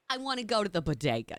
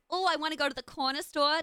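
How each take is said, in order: First: Lower, quicker full Brooklyn accent; low-register Brooklyn accent; fallen-back Brooklyn accent. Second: Light, high Harley Quinn-esque accent; higher-pitched take on a Brooklyn accent; uplifted accent. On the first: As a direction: let the accent drop down into thick Brooklyn. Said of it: "I keep falling back down". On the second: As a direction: keep the New York accent bright and lifted. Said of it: "I need to stay uplifted". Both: Shown as a demonstration.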